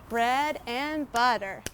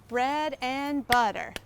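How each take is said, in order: The two takes are said the same way.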